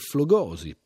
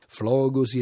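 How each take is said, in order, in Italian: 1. L'accento segue la pronuncia alla latina. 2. L'accento segue la pronuncia alla greca. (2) "la pronuncia alla greca"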